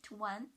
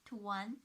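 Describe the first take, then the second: The two takes are said the same way.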